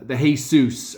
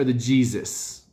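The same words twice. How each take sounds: First: Jesus said Spanish-style, hay-SOOS; Spanish pronunciation. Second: Jesus said English-style, JEE-zus; English pronunciation. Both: Shown as a demonstration. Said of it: "I don't know how he pronounces his name".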